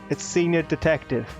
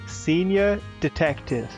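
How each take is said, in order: First: It is said at normal speed. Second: It is said slowly.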